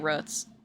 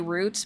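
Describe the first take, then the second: First: The word is said in a Midwestern way. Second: The word is said in a standard way. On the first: "if I'm saying it out loud, loud I say roots. Which I guess is an Illinois thing or a Midwestern way to say it" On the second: "if I'm reading the word roots, I say roots"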